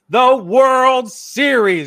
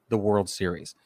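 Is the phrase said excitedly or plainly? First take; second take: excitedly; plainly. First: The phrase is exclaimed with loud excitement. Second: The phrase is said plainly, without excitement. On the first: The speaker calls it right. "You have to exclaim it" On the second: The speaker calls it wrong. "You can't say the World Series"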